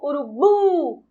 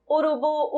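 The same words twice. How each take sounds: First: Last syllable of urubu drawn out and stronger; stress on final syllable. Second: Said in the usual way. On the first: Shown as a demonstration. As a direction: call out urubu, leaning long on the final "bu". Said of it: "Conseguem perceber que o bu é a sílaba mais forte". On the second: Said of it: "Chamando a palavra, muito simples".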